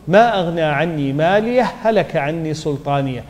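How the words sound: 'Maliyah' runs straight into the next word. "وعند الوصل"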